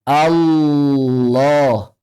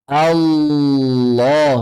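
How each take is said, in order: The two takes are said the same way.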